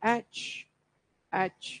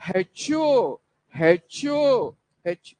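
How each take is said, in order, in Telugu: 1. అక్షరం పేరు అచ్చు ధ్వనితో మొదలవుతుంది. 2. అక్షరం పేరు హ ధ్వనితో మొదలవుతుంది. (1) "అది హెచ్ కాదు, అది ఇట్స్ హెచ్ హెచ్" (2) "నూటికి తొంభై తొమ్మిది మంది ... ఇలా పలుకుతుంటారు. This is a blunder"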